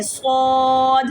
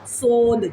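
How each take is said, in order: First: سواد drawn out slowly, hissed and full-mouthed; heavy whistled sad. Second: سود said short and light, the wrong way; wrong light sood. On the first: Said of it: "سیٹی بھی ادا کریں اور سواد موٹا بھی کریں". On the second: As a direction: clip سود quickly with a thin vowel. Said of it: "سود نہیں پڑھنا". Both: Shown as a demonstration.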